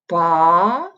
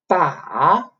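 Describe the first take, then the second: First: The pitch rises upward. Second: The pitch dips down, then rises. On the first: "second tone would somewhere like this, like a rising line" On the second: "the third tone, which is like you go down a little bit and then go up"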